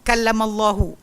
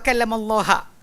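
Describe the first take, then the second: First: The final vowel is u. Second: The final vowel is a. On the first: God is the one who spoke. The speaker calls it right. "dia tak nak ayat ni bunyi kallamallahu" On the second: Moses is the one who spoke to God. The speaker calls it wrong. "Dia nak tukar ayat tu kepada wa kallamallaha"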